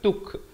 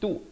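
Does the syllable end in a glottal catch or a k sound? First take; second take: k sound; glottal catch. First: The syllable ends with a k sound. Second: The syllable ends with a glottal catch. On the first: The speaker calls it wrong. "bukan tuk. Kalau tuk jadi huruf kaf" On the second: The speaker calls it right. "bunyi tu"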